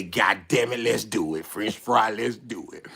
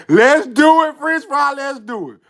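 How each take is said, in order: First: Low, soft acted resolve; quiet, low pep talk; low-key agreement. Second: Higher, louder acted rally, fading at the end; rally your buddy, then ease off; keen acted pep talk; eager agreement. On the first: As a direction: agree under your breath. Acted agreement, first said under breath. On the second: Same agreement repeated, now louder.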